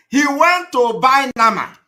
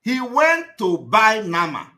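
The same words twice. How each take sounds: First: Louder, higher, jabbing at "went"; loud mocking. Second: Slower, leaning hard on "went"; slow emphatic. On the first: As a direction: call it out loud, scornful. Mocking the victim's errand. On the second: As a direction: spell it out slowly so it sinks in. Repeats the point, slower. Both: Real, not acted.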